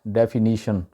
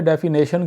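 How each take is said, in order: First: डेफिनेशन with "ni" in place of "nay"; correct pronunciation. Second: डेफिनेशन with "nay" in the middle; mistaken local pronunciation. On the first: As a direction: say डेफिनेशन as "def-i-NI-shun". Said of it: "सही pronunciation है". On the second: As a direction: say डेफिनेशन as "def-i-NAY-shun". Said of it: "वहाँ पे डेफिनेशन क्यों बोलते हैं लोग". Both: Shown as a demonstration.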